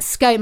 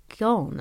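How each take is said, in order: First: "scone" said long, rhyming with "cone"; scone rhymes with cone. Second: "scone" said short, rhyming with "gone"; scone rhymes with gone. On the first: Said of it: "But scone". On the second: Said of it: "I say". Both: Shown as a demonstration.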